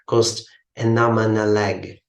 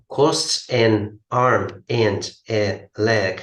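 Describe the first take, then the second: First: The words are linked together smoothly. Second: Each word is said separately, without linking. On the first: The speaker calls it right. "it will pronounce as" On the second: The speaker calls it wrong. "Nobody could speak like this"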